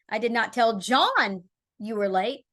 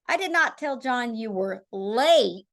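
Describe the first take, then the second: First: The stress is on "John". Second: The stress is on "late".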